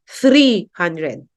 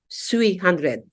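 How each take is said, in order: First: The first word begins with a th sound. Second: The first word begins with an s sound. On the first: "They could hardly say three hundred" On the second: "They would say sui"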